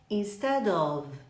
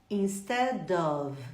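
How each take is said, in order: The two takes are said the same way.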